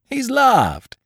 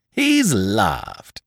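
First: High, delighted crow of triumph; higher gleeful shout "He's laughed!"; gleeful cry. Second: Delighted echo in a changed voice; lightly voiced gleeful echo "He's laughed!"; gleeful repeat. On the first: Acted. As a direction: cry it out jumping for joy. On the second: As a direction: crow it a second time, savouring it. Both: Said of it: "cried Lupin, jumping for joy".

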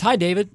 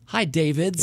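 First: Said in the usual way. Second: DAVIDS with the final S sounded; "Davids" said clearly as a plural; plural correction. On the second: Shown as a demonstration. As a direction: land on the added S in "Davids". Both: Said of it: "In this case, we'll go with".

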